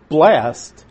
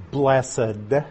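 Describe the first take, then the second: First: Blessed said as a single syllable, blest; one-syllable blessed. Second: Blessed said as BLESS-ed, two syllables. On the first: Teacher showing the Beatitudes word, one-syllable blessed. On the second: Teacher contrasting the two words, two-syllable blessed. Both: Shown as a demonstration. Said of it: "I'm emphasizing the pronunciation of blessed".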